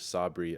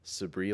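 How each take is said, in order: First: Sabri said "SAH-bree", open "ah" first; second pronunciation of Sabri. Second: Sabri said "suh-BREE", short unstressed first vowel; first pronunciation of Sabri. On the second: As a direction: say Sabri as in Sabrina without the end. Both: Shown as a demonstration. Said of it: "two different ways to pronounce it".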